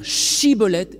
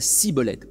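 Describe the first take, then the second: First: The word begins with an 'sh' sound. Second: The word begins with an 's' sound. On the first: The speaker calls it right. "Il faut être capable de dire « Shibboleth »" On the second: The speaker calls it wrong. "et pas « Shibboleth »"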